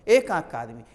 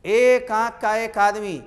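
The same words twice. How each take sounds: First: Said in the usual way. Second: एक stressed, whole phrase slow and louder; slow emphatic. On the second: Shown as a demonstration. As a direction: press on एक and drag the phrase out. (एक पर ज़ोर, धीरे और ऊँचा बोलना)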